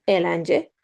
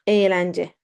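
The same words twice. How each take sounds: First: Eğlence in a short first vowel, not lengthened; wrong, ğ pronounced. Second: Eğlence with silent ğ, first vowel lengthened. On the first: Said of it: "Not eğlence". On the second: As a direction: draw out the opening e of eğlence, no g. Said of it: "we do not pronounce it". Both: Shown as a demonstration.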